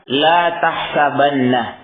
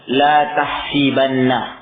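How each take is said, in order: First: The vowel after the s is 'a'. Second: The vowel after the s is 'i'. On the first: This is not the form that was originally said. "beliau tidak mengatakan" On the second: This is the form that was originally said. "tapi beliau mengatakan"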